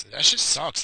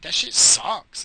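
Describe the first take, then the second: First: Said in the usual way. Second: Slow, drawn-out disgust. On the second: Real, not acted. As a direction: drag it out, grossed out. Disgusted verdict on the cereal.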